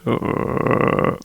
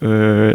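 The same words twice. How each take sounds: First: A very low voice breaking into a croak. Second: A low voice held steady and smooth. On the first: "it's a croak" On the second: "steady like uh"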